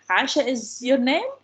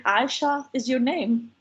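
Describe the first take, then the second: First: Statement order with "name" rising sharply; question intonation. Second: Said in the usual way. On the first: Shown as a demonstration. Lecturer shows how Indians ask questions, rising intonation. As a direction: turn "Aisha is your name" into a question, rising on "name". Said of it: "they control their intonation". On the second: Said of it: "in order to show that this is a question".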